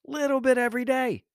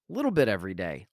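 First: A high punchy repeat of Little bit every day; emphatic high repeat. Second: Said in the usual way. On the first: Shown as a demonstration. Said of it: "repeated for emphasis". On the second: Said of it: "repeated phrase".

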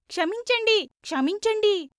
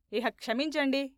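First: High, insistent group chant; chorused plea. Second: Said in the usual way. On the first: A narrator's reading. Seven disciples shaking Veerraju's hands, high chorused plea. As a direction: chant క్షమించండి high and forcefully, twice. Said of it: "ఏడుగురు ఏకకంఠంతో". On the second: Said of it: "బైరాగి నిర్లక్ష్యంగా".

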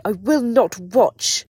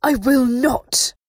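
First: Slow, high, very loud scream; screamed refusal. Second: Slow, loud, high refusal; furious high voice with a vibrating edge; razor-edged, vibrating. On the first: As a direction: scream each word in defiance. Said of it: "She did scream the last bit". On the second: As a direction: spit out each word at full force. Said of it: "her voice razor-edged and vibrating". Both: A narrator's reading.

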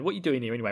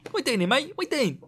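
First: Said in the usual way. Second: Much higher, silly put-on voice; mock matey questioning. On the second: Warrior quizzing Rand, high mock-matey voice. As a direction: squeak the question out chummily.

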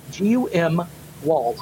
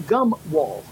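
First: GUM spelled letter by letter, G U M, then wall. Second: Said in the usual way. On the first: Shown as a demonstration. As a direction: spell G U M for clarity, pause, drop on wall. Spells the word just said.

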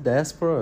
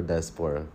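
First: "diaspora" as dye-ASS-pruh; unstressed ending pronunciation. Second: "diaspora" as dye-ass-POR-uh; full-vowel pronunciation. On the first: Host asks co-host which way to say it, "diaspora" as dye-ASS-pruh. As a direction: say "diaspora" with a short, reduced third syllable. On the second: Host offers co-host the other option, "diaspora" as dye-ass-PORE-uh. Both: Shown as a demonstration.

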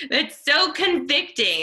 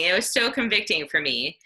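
First: Much higher and louder, still laughing, leaning on "so"; laughing exclaim. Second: Said in the usual way. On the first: Real, not acted. Speaker to the women's group, struck by the quote, laughing exclaim. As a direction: blurt "That's so convicting" through a laugh, "so" stretched high.

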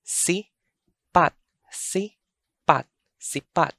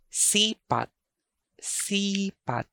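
First: Sipat split as si-PAT; short SI, then a stressed PAT in sipat; stress on second syllable. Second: Sipat with a long, high SEE; SII-pat, second syllable dropping; stress on first syllable. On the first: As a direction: break sipat in two and hit PAT. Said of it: "The alternate pronunciation for sipat is sipat". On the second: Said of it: "The alternate pronunciation for sipat". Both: Shown as a demonstration.

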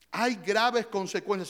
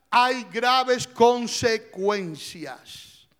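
First: Said in the usual way. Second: Slow, loud, every word hammered; slow emphatic warning. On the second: Acted. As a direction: drag out hay graves consecuencias, loud and heavy. Preacher hammers the warning home.

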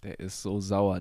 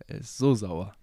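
First: Said in the usual way. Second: Louder comic complaint; exaggerated whine. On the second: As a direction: ham up the sourness. Repeats joke, exaggerated.

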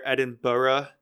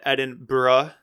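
First: "Edinburgh" drawn out to four syllables, ending "burra"; Western pronunciation. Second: "Edinburgh" with the ending squeezed to "bruh"; short pronunciation. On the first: Podcaster teaching two pronunciations, Edinburgh as "Edin-burra". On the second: Podcaster teaching two pronunciations, Edinburgh as "Edin-bruh". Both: Shown as a demonstration. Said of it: "you're gonna hear two pronunciations".

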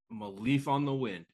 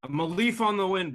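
First: Said in the usual way. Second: High, loud recited quote; movie quote. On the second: Acted. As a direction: belt out the line like a pilot. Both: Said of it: "It is Serenity".

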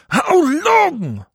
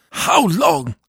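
First: "How long?" shrieked much higher, "long" held long and falling; the peak of the wail, a howl to heaven; shrieking cry. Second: "How long?" cried high and loud with a falling end; a desperate wail to God; anguished cry. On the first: Dead priest begs God once more, shrieking higher. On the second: Dead priest begs God for rest, high wail. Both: A narrator's reading. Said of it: "cried the voice of Jean-Marie".

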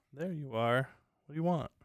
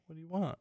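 First: Higher, fond voice for the cat; talking to the cat. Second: Talking to the cat. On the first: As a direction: coax the cat with a raised, fond voice. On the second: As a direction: coo the question gently at the cat. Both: Real, not acted.

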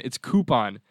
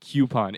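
First: Coupon said as KOO-pon; corrected pronunciation. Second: Coupon said as KYOO-pon; disliked pronunciation. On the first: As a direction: coupon with a plain "koo", no y-glide. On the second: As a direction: Coupon with a y-glide after the k. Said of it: "drives me nuts when I hear that". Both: Shown as a demonstration.

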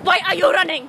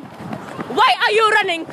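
First: Shouting. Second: High, slow, stretched yell; drawn-out shout. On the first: Friend running after recording. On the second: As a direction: call it out long and high. Repeats it drawn out, higher. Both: Real, not acted.

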